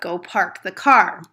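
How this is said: It is said in a Chicago accent with R's.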